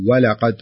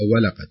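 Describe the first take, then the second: First: The word starts directly with the w. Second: An extra vowel onset comes before the w. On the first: The speaker calls it right. "مباشرة تبدأين بالواو" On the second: The speaker calls it wrong. "كأنك تضعين ألف أو فتحة قبل الواو"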